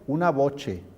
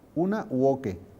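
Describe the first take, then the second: First: It starts with a v sound and has a soft ch. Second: It starts with a u sound and has a hard k. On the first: This follows the Roman pronunciation recommended by the church. "pronunciación romana... se ha producido la palatalización" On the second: This follows the classical pronunciation used in universities. "pronunciación clásica... la V es con una U, y el sonido C es caquequicocu"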